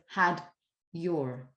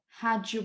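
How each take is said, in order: First: The d and y sounds stay separate. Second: The d and y blend into a j sound. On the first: "Instead of had your" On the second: "So this is why you would say something like"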